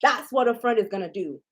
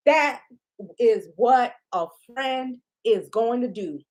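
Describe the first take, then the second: First: Said in the usual way. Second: "That" hit hard and on its own, then "is what a friend is going to do" drawn out in full; laying down the rule word by word; spelled-out emphasis. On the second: Shown as a demonstration. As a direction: uncontract every word and lean on "That".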